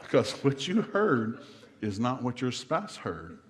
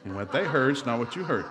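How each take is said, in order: First: "you" leaned on, slow and deliberate; stress on you. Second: "they" hit hardest, then a falling close; stress on they. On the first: Preacher telling couples what each heard, stressing "you". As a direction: weigh each word, landing on "you". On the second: Preacher flipping it back on the spouse, stressing "they". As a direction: land the contrast on "they". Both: Shown as a demonstration.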